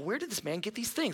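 It sounds admiring and full of wonder. The listeners are impressed by him. "that could be like, wow"

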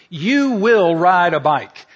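It sounds like a stern command.

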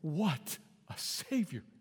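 It is said as a joyful exclamation.

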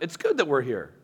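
It is said as a statement.

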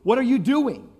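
It is asked in an accusing tone. The listener is being blamed. "We sometimes accuse people"

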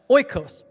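It starts with an 'oy' sound, Western style.

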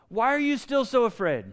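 The question sounds gentle and reassuring. Jesus is reassuring them of his love and power. The speaker calls it right. "I see him saying to them, like"

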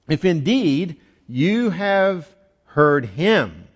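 The word him carries strong emphasis. The speaker calls it right. "You got to read it that way. Underline the word him"

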